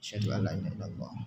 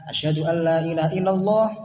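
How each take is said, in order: First: It is said in a quiet voice. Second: It is said in a loud voice.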